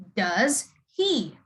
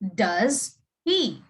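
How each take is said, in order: First: The h in 'he' is clearly pronounced. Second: The same.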